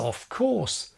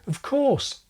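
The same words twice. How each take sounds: First: The word 'of' is said fully and clearly. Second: The word 'of' is a tiny weak prefix. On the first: "Non-natives may pronounce this as" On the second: "usually just a tiny prefix"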